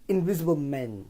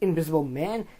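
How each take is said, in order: First: The last word has the vowel of "men." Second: The last word has the vowel of "man." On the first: "it sounds like he's saying men, but it's man" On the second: "They don't say it like Invisible Man"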